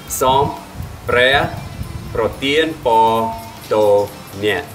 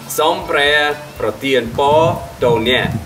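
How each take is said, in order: First: It is said slowly. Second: It is said at normal speed.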